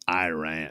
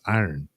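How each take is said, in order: First: The word sounds like the country Iran. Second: The word sounds like the metal iron. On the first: The speaker calls it wrong. "I didn't say that right. Iran" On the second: The speaker calls it right. "but it's iron"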